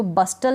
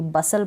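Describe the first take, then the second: First: "बस्टल" with the T sounded; mispronounced "बस्टल", T not silent; wrong pronunciation. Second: "बसल" with a silent T; lower-pitched model "बसल", no T; correct pronunciation. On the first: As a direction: say a hard T after the S in "बस्टल". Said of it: "बस्टल नहीं पढ़ूंगी". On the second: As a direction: drop the T, S straight into L in "बसल". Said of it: "टी इसमें silent है". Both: Shown as a demonstration.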